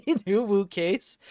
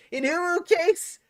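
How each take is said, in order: First: Laughing through the words in disbelief; amused, laughing it out. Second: Much higher, slow, cutesy squeak on uwu; mock a cutesy uwu voice; squeaky uwu voice. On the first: Real, not acted. Streamer laughing at a chat message, laughing. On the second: Streamer mocking a chat request, squeaky uwu voice. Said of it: "Don't speak in Uwu case".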